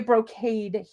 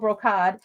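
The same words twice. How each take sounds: First: The last syllable sounds like 'cade'. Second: The last syllable sounds like 'cod'. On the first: This is the local way of saying it. "we say brocade here" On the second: This is the British way of saying it. "I always said cod"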